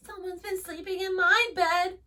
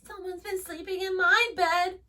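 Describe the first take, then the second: First: It is said in a high squeak. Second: It is said in a high squeak.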